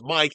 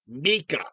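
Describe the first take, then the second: First: The name is said as one syllable, like 'Mike'. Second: The name is said as two syllables, like 'Mika'. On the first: The speaker calls it wrong. "It's not pronounced Mike" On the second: The speaker calls it right. "It's pronounced Mika"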